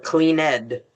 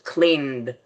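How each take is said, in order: First: The ending is said as a separate syllable. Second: The ending adds no separate syllable. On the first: The speaker calls it wrong. "We don't say ... clean ed" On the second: The speaker calls it right. "it's never pronounced ed"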